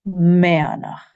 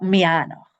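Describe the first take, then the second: First: The stress is on the first syllable. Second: The stress is on the second syllable. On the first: The speaker calls it right. "the stress in Gaelic is always on the first syllable" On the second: The speaker calls it wrong. "not mianach or something like that"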